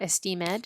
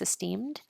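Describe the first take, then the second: First: The -ed ending is said as its own syllable. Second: The -ed ending is joined without an extra syllable. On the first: The speaker calls it wrong. "it's not esteemed" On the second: The speaker calls it right. "it's esteemed"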